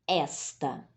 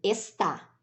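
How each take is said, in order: First: The stress is on the first syllable. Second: The stress is on the last syllable. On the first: "a sílaba tônica recai na penúltima sílaba" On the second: "A sílaba tônica, nessa segunda opção, recai na última sílaba"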